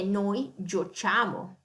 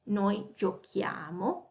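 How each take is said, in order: First: The consonant before -iamo is a soft CH sound. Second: The consonant before -iamo is a hard K sound. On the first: The speaker calls it wrong. "That's not correct in Italian" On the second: The speaker calls it right. "So it's a hard C"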